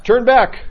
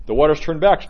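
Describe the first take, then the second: First: Exultant cry. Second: The waters turn back called out louder and higher; rising prayer call. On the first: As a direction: turn back! shouted much higher and louder. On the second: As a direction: start the chant, lifting on back. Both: Shown as a demonstration. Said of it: "You know, we say that here".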